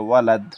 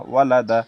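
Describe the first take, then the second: First: ওয়ালাদ closed on a final d; pausal stop. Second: ওয়া, লা, দা run together as walada; joined form. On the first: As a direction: drop the last vowel, stopping ওয়ালাদ on d. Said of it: "ওয়াকফ করিলে". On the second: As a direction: sound the final a in ওয়া, লা, দা. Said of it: "ওয়াকফ করিলে ওয়ালাদ". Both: Shown as a demonstration.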